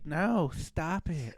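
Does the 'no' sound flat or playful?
playful. It sounds teasing and playful, not a real refusal. The refusal is not meant seriously. "that shit don't mean no. That means keep going"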